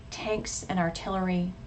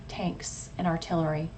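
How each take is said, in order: Both takes have the same delivery.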